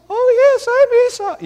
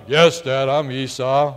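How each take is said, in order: First: Much higher, squeaky and thin; Jacob's natural voice. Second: A lower, mock-gruff put-on voice; faking his brother's voice. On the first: Retold or imitated. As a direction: pitch it way up like a boy caught out. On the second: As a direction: drop the voice to pass as Esau. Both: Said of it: "trying to make his voice probably sound like".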